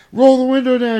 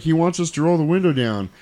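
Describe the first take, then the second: First: High, loud mock yell. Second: Said in the usual way. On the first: Couple yelling across to the other car, high and loud. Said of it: "and they're yelling".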